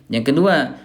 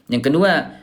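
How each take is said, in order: Both takes have the same delivery.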